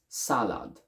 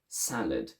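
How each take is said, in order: First: The second syllable keeps a full vowel. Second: The second syllable is shortened to a schwa. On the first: "in an Italian accent ... I would still keep a full a sound in the second one" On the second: "In English ... the second one is shortened"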